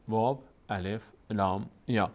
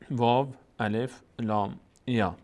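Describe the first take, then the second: No difference in how they are said.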